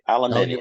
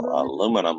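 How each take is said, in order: First: It is said the British way, aluminium. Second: It is said the American way, aluminum.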